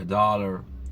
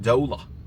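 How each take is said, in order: First: It is said with an American accent, r pronounced. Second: It is said with a British accent, r dropped.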